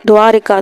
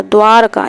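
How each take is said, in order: First: द्वारिका said with an extra short इ, as dvaa-ri-kaa; wrong spelling read out. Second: द्वारका said with no इ, as dvaar-kaa; correct spelling read out. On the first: Teacher reads the misspelt द्वारिका to students, dvaa-ri-kaa. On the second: Teacher gives the correct द्वारका to students, dvaar-kaa. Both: Shown as a demonstration. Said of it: "द्वारका इस तरीके से लिखा जाएगा".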